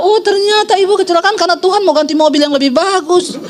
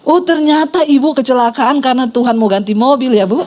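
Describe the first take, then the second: First: High-pitched mock realization; exaggerated "oh, so that's why", pitched up; imitating snide critic. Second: Mock realization with a catty edge; backhanded remark, retold for laughs; imitating snide critic. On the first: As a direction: parody a busybody's catty dig. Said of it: "itu dia langsung bilang". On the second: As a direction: lightly imitate a busybody's dig. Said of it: "Ibu yang juli tadi bilang begini".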